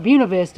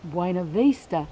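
First: The name is said the local Georgia way. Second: The name is not said the local Georgia way.

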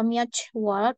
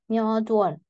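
First: A t sound is heard before 'wol'. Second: A d sound is heard before 'wol'. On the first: The speaker calls it wrong. "bukan myotwol" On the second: The speaker calls it right. "seolah-olah seperti myo dual"

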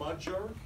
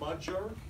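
First: The middle consonant sounds like English J. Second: The same.

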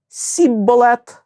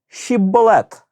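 First: The word begins with an s sound. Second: The word begins with an sh sound. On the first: The speaker belongs to the group that lacks the sh sound. The speaker calls it wrong. "бо не міг говорити так" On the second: The speaker belongs to the group that has the sh sound. The speaker calls it right. "скажи, но, щібболет"

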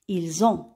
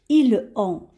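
First: The s links to the vowel as z. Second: The s is silent, with no z link. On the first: The speaker calls it right. "on va faire la liaison et on va dire ils ont" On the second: The speaker calls it wrong. "on ne va pas prononcer de cette façon"

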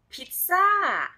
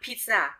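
First: It is said with a Thai accent. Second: It is said with an English accent.

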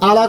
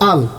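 First: A vowel is sounded after the L. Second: The L ends the syllable with no vowel. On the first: The speaker calls it wrong. "আলা কত যাবে না" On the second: The speaker calls it right. "সাকিন আলা হরফ তাড়াতাড়ি পড়তে হয় আল"

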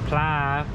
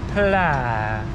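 First: The pitch does not fall on the word. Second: The pitch falls across the word. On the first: The speaker calls it wrong. "I don't say it properly" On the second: The speaker calls it right. "with a downwards pla"

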